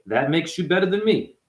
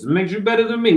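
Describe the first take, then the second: First: Said in the usual way. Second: High-pitched put-on Italian accent; lilting, higher Italian-voice imitation. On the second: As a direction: play up a mock Italian accent. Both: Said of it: "This is my Italian voice".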